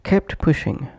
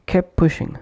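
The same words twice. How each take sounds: First: KEPT PUSHING with the t of KEPT released; full final T. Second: KEPT PUSHING as "kep pushing"; dropped T. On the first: Teacher showing separate words, full final T. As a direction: say "kept" fully, then "pushing". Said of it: "pronounced as". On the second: Teacher showing connected pronunciation, dropped T. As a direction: push "kep" straight into "pushing". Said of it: "omitting T or T completely". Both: Shown as a demonstration.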